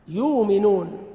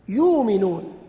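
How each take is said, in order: The two takes are said the same way.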